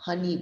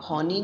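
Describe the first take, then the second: First: "honey" as "HUN-ee"; standard pronunciation. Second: "honey" with an o, "HON-ee"; wrong spelling pronunciation. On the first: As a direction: say "honey" with a short uh, like "hunny". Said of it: "आप honey बोलते हो". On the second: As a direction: say "honey" as spelt, like "honny". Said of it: "आप honey नहीं बोलते हो". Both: Shown as a demonstration.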